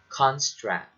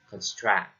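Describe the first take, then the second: First: The stress is on the first syllable. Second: The stress is on the second syllable. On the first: The speaker calls it right. "you have to stress it on the first syllable like construct" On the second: The speaker calls it wrong. "not construct"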